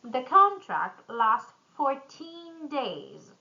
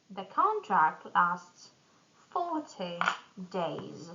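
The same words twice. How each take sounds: First: Put-on slow, "fourteen" stressed on TEEN. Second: "forty" stressed on FOR, then falling. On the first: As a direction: hit the end of "fourteen". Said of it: "tin numbers stress at the end". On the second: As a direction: lean on the start of "forty". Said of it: "tens are stressed at the beginning". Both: Shown as a demonstration.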